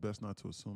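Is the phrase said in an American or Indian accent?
American. It is said in a plain American accent. "the correct American term is to say"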